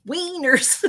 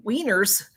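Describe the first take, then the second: First: Higher, drawn-out word breaking into laughter; tickled by a silly word; amused. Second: Said in the usual way. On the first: Real, not acted. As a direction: say it high and giggle after.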